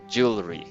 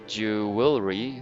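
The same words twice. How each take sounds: First: The word is said with two syllables. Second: The word is said with three syllables. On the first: The speaker calls it right. "just two syllables" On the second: The speaker calls it wrong. "instead of"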